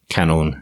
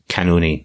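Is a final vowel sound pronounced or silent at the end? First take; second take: silent; pronounced. First: No final vowel sound is pronounced at the end. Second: A final vowel sound is pronounced at the end. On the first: The speaker calls it right. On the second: The speaker calls it wrong.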